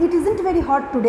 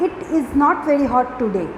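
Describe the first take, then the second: First: The words 'is not' are contracted together. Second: The words 'is not' are said in full.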